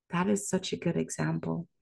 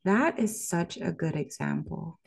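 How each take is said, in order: First: Quick unvoiced whisper. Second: Said in the usual way. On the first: Shown as a demonstration. Savoring the dictionary example, whispered quickly. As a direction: breathe it out as a hushed aside. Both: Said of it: "repeats the line, then whispers".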